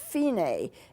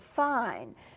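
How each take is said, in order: First: It is said as the music term. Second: It is said like the everyday English word. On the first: The speaker calls it right. "in music, it's pronounced fine" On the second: The speaker calls it wrong. "You would be tempted to pronounce it fine"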